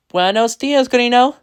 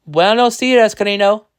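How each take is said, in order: First: High, lilting greeting rising at the end; wife's reply. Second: High, loud greeting falling at the end; husband's greeting. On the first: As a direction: answer the husband, voice climbing upward. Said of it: "she replied". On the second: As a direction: greet the wife brightly, pitch dropping off. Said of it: "he said". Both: A narrator's reading.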